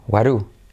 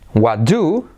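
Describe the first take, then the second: First: The t and d merge into a soft tapped r. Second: The t and d are separate, full stop sounds.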